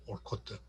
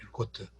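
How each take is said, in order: First: 올코트 opening with an 'ol' sound; O pronunciation. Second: 엘코트 opening with an 'el' sound; 'el' pronunciation. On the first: Lecturer showing how Americans sound the A, 올코트 with an O. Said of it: "A를 O로 발음한 경우". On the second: Lecturer giving the alternative name, 엘코트 with an 'el' start. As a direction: say 엘코트 with an E-like first vowel. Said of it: "올코트인지 엘코트인지". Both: Shown as a demonstration.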